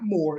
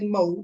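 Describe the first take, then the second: First: The word ends with a clear r sound. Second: The word ends without an r sound. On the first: "not more" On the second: "I did say mo"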